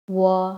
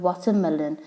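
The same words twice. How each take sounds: First: "Watermelon" in four separate syllables with pauses; broken into syllables. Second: Said in the usual way. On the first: Shown as a demonstration. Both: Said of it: "separated into four parts".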